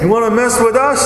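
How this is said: It is said in a New York accent.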